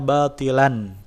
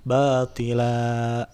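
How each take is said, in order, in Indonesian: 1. Kata ini diakhiri dengan bunyi n. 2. Kata ini diakhiri dengan a panjang. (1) "Tadinya batilan" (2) "karena diwakafkan bacaannya jadi batila"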